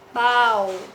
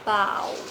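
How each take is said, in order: First: The pitch stays level in the middle. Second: The pitch stays low throughout. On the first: "Bau dengan nada datar" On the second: "Dengan nada rendah"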